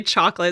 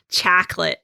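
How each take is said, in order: First: Said in the usual way. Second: Mock American "chocolate" with a flat "chack-lit" vowel; imitated American accent. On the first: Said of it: "When we would say chocolate". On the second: Retelling German colleague mocking Americans, imitated American accent. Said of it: "hilarious to hear an American accent".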